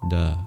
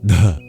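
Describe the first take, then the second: First: The d is released without a puff of breath. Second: The d is released with a puff of breath. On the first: The speaker calls it wrong. "rather than da" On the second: The speaker calls it right. "It sounds like da"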